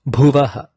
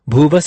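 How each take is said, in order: First: The word ends with a breathy 'aha' sound. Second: The word ends with a hissing 's' sound. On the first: The word stands alone. "this word alone is pronounced as Bhuvaha" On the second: The word is followed by an s sound. "transform the Bhuvaha to Bhuvas"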